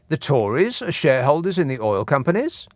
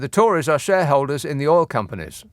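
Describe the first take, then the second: First: It is said as a question. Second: It is said as a plain statement. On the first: The speaker calls it right. "Question coming up" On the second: The speaker calls it wrong. "I know I didn't say it as a question"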